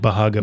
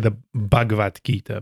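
First: The first consonant is a breathy, aspirated bh. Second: The first consonant is a plain b sound. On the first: This is closer to the original language. "but the B-H is Bhagavad Gita" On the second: This is the usual English way of saying it. "in English, you would say the Bhagavad Gita"

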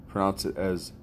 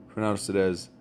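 The two takes are said the same way.

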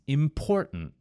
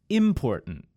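First: The stress falls on the second syllable. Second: The stress falls on the first syllable. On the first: The speaker calls it right. "The correct answer is important" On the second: The speaker calls it wrong. "In the word important, which is incorrect, I emphasized the first syllable, im"

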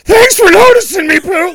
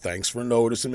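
First: It is said in a really weird pitch. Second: It is said in a normal Eeyore pitch.

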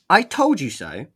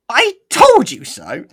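First: It is said in a plain, natural speaking voice. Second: It is said in an exaggerated, funny character voice. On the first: "I'll just do it normally" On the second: "let's not go with that voice. that was Sticks. It's a bit too funny"

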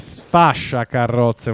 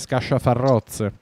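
First: The 'sf' and 'sc' sounds are in place. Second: The 'sf' and 'sc' sounds are swapped. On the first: The speaker calls it right. "in realtà è sfasciacarrozze" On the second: The speaker calls it wrong. "tu pensa che io non so dire scasciafarrozze"

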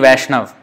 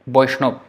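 First: It starts with V and has no final vowel. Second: It starts with B and ends in ob. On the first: This is the Hindi pronunciation. "in Hindi Vaishnav" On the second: This is the Bengali pronunciation. "but in Bengali, Boishnob"

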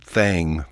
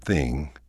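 First: The vowel sounds like 'ang'. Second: The vowel sounds like 'ing'. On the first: "We say thang" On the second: "for thing"

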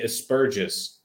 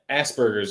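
First: The word is said in an Australian accent. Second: The word is said in the speaker's own accent. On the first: "They say Aspergis" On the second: "they don't say Asperger's like we do"

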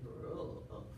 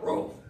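First: It is barked like a Latino dog, rolled r. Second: It is barked like a hood dog.

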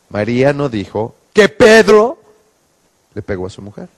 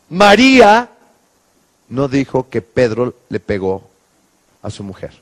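First: The stress is on Pedro. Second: The stress is on María.

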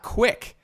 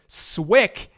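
First: The name starts with a K sound. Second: The name starts with an S sound. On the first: The speaker calls it wrong. "and not Quick" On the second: The speaker calls it right. "my last name is pronounced Swick"

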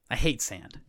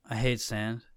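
First: It sounds plain and matter-of-fact. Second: It sounds dreamy and spaced off.

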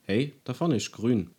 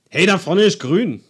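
First: It sounds like a neutral factual remark. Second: It sounds like an urging call to act.

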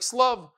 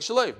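First: The word begins with an s sound. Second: The word begins with an sh sound. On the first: This is how the word is read aloud. "But we read it with a sin, like a samach" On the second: This is how the word is written. "if you look at the Torah, it looks like shalev"

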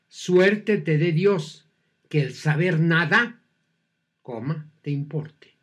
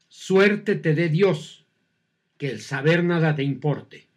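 First: There is a pause after nada. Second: There is no pause after nada.

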